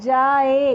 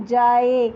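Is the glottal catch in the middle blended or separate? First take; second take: blended; blended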